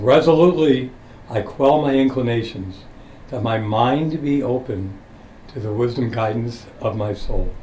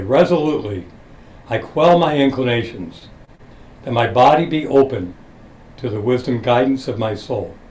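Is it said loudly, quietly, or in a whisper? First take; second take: quietly; loudly. First: It is said at a lower volume. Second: It is said loudly and clearly.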